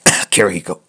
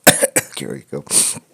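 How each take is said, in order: First: "Kirihiko" blurted inside a cough; fake cough name. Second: "Kirihiko" whispered slowly under a cough; whispered cough name. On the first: Joking to chat after banning spoilers, coughed-out name. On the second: Pretend. Teasing chat a second time, slow whispered cough. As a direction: sneak the name out in a breathy cough.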